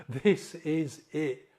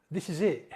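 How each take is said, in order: First: "This is it" loud and slow, each word weighted; slow, emphatic. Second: "This is it" louder, breaking into a laugh; emotional half-laugh. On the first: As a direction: hammer out THIS - IS - IT word by word. Repeats it slowly for emphasis. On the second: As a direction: say it firmly, then laugh. First take, breaks into laugh. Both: Real, not acted.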